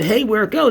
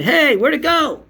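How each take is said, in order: First: A light, slightly raised mimic; hint of the filmer's voice; imitating the filmer. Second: Very high, louder mock wonder; squeaky mock amazement; imitating the filmer. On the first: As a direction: quote him a bit higher. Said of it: "And when he said". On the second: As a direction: mimic his fake amazement. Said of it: "this is what he did".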